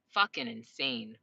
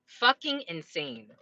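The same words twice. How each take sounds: First: Low, slow muttering; muttered aside. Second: Said in the usual way. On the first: Real, not acted. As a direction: say it under your breath, slowly. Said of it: "repeated phrase, low and slow". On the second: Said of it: "repeated, a bit louder".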